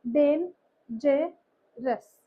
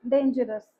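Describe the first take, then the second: First: डेन जे रस said slowly, syllable by syllable; split into syllables. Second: Said in the usual way. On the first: Shown as a demonstration. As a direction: break डेन जे रस apart, one beat each. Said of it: "इसमें क्या होगा". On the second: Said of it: "इस तरह से".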